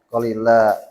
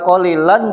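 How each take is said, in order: First: The word ends with a long a vowel. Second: The word ends with an n sound.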